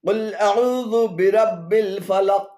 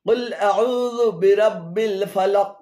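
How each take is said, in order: No difference in how they are said.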